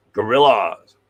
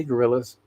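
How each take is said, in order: First: "Gorillas" stretched with a swooping rise and fall; "Gorillas" ending in a long "lahz"; playful drawn-out name. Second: Said in the usual way. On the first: Real, not acted. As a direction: draw out "Gorillas", opening the last vowel to AH. Repeats the name playfully after reading.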